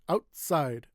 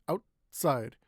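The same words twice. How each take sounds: Both takes have the same delivery.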